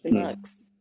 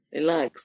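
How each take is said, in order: First: Breathy whispered "Relax.". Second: Said in the usual way. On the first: Acted. Whispering to an eager admirer to calm down.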